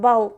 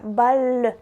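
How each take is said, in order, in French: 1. Le mot se termine brusquement sur le son L. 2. Une voyelle faible s'entend après le L final. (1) "Et pour les Russes, c'est ball" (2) "quand les Français prononcent balle, c'est, c'est comme ça"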